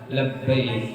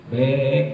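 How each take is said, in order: First: Both syllables are said, starting with la. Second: The first syllable is cut off, leaving one syllable. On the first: The speaker calls it right. "padahal bukan back tapi apa?" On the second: The speaker calls it wrong. "Kalau orang Jakarta dipotong jadi back aja ya"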